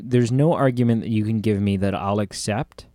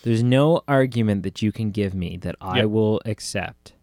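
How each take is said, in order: First: The sentence is spoken at a normal pace. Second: The sentence is spoken slowly and deliberately.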